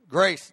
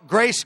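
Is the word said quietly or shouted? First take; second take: quietly; shouted. First: The word is said quietly and weakly. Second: The word is shouted loudly. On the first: The speaker calls it wrong. "No. Shout grace" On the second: The speaker calls it right. "Shout grace"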